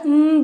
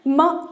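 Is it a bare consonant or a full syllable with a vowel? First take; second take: bare consonant; full syllable. First: A bare hum with the mouth closed. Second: A full syllable with a vowel after it. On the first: The speaker calls it right. "मुंह बंद करके इस तरह म बोलना है" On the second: The speaker calls it wrong. "म नहीं बोलना है"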